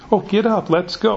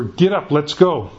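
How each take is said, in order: First: The phrase is attempted in a soft, gentle voice. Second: The phrase is said plainly and bluntly.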